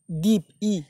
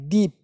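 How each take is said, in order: First: দ্বীপ followed by a separate ই; broken pronunciation. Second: Said in the usual way. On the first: Shown as a demonstration. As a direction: say দ্বীপ, then sound the ই on its own. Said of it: "ই কারে দেখো উচ্চারণ আসছে". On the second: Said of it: "কী উচ্চারণ আছে?".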